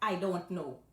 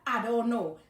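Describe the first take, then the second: First: The first word sounds like 'eye'. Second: The first word sounds like 'ah'. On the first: This is the English way of saying it. "when you say I in English" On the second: This is the Guyanese Creole way of saying it. "instead of saying I, we just say A"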